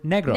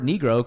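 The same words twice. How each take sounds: First: It is said with a Spanish pronunciation. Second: It is said with an English pronunciation. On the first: "the Spanish word negro" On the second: "the word Negro"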